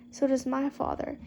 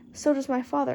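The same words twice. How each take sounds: First: It is said in a whining voice. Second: It is said in a plain voice.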